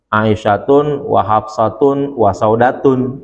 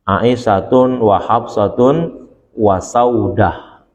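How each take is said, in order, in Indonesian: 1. Nama belakangnya berakhiran 'atun' dengan tanwin. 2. Nama belakangnya berakhiran 'ah' tanpa tanwin. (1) "kalau ngikutin ... mestinya begitu" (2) "dibaca tanpa menggunakan tanwin"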